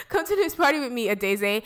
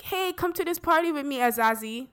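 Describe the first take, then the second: First: Party invite pitched up, ending on "Adeze"; "Adeze", ah-DAY-zay at the end; corrected name Adeze. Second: Party invite pitched up, ending on "Azazi"; "Azazi", ah-ZAH-zee at the end; name said as Azazi. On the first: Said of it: "Why did I say [name]?". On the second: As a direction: say "Azazi" with an ah in the middle. Acting [name]'s party invitation. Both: Retold or imitated.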